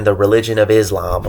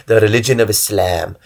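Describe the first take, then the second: First: Slight accidental southern accent on Islam. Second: Said in the usual way. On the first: Real, not acted. Explaining a term to listeners, slipping into a southern accent. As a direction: say it with a hint of southern twang. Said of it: "a southern accent there".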